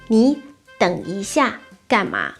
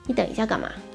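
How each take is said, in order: First: 下 begins with a clear x sound. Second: 下 begins with a y-like sound.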